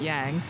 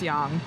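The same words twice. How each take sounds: First: The syllable is pronounced as English spelling suggests. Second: The syllable is pronounced with a Korean pronunciation. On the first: "the way that it's written in English" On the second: "in Korean, it's yang"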